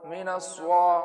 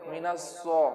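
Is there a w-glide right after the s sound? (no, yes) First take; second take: yes; no. First: A w-glide follows the s sound. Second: No w-glide follows the s sound. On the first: "वाव के साथ पढ़ते हैं" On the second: "बगैर वाव के"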